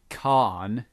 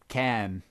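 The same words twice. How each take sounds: First: The word is said in a British accent. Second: The word is said in an American accent. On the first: "apparently we say it a bit like can" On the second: "and they say a bit like um can"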